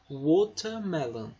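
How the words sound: The t is pronounced as a clear t. This is how it is said in England. "eles tendem a pronunciar como se fosse um T mesmo"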